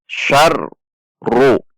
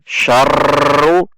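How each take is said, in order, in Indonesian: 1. R-nya digetarkan ringan. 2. R-nya digetarkan terlalu kuat. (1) "namun getarnya terbatas" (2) "Takrirnya atau getarnya tidak dengan berlebihan, tidak dengan misalkan syarru"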